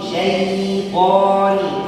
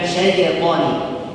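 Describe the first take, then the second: First: The ya sound is held and flows smoothly. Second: The ya sound is rushed and bounces. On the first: The speaker calls it right. "Jangan buru-buru. Ditahan" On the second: The speaker calls it wrong.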